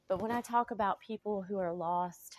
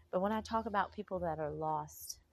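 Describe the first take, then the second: First: Whispered. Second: Said in the usual way. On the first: Real, not acted. Whispered confession to viewers.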